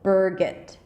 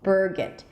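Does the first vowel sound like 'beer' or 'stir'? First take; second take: stir; stir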